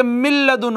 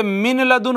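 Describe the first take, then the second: First: "मिल लदुन" with the n turned into a doubled l; इदगाम के साथ. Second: Said in the usual way. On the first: Shown as a demonstration. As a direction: lean straight into the lam of "मिल लदुन". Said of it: "नून साकिन को लाम में मुदगम". ("मिल लदुन" में नून छोड़कर लाम पर शद) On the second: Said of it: "ये मिन लदुन हो जाएगा".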